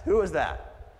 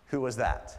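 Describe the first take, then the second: First: Higher, louder searching question; urgent call. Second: Said in the usual way. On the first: Retold or imitated. Jesus calling out to the crowd, urgent and loud. Jesus asking who touched him.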